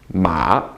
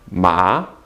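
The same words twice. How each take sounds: First: The syllable is said with a dipping tone. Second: The syllable is said with a rising tone.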